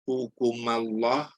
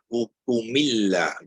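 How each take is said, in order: First: An a vowel links the two words. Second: An i vowel links the two words. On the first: "tak tak selicin hukumullah" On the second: "tukar baris bawah pun tak sebagus baris baris depan"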